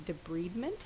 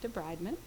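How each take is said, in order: First: It uses the pronunciation common in human medicine. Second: It uses the pronunciation common in veterinary medicine. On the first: This is how doctors of human medicine say it. "the pronunciation in human medicine" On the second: This is how veterinarians say it. "veterinary medicine, we universally say debridement"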